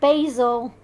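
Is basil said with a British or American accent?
American. Basil is said with an American accent.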